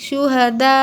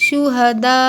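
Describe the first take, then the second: The two takes are said the same way.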